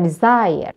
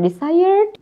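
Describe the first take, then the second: First: "desire" said with no final d, ending on the stressed -sire; "desire" lands on the stressed last syllable; correct ending shown. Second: "desired" said a touch higher, with a final d, as the wrong form; "desired" with the d sound clearly added; wrong ending shown. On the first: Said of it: "but desire". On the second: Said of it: "Not desired". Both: Shown as a demonstration.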